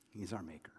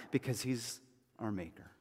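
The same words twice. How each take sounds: First: "He's our maker" breathed in a real whisper. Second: Said in the usual way. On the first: Real, not acted. Pastor to congregation, a hushed real whisper. Repeated line, second whispered.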